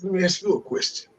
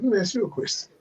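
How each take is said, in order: First: It is said in a put-on character voice. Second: It is said in his ordinary speaking voice.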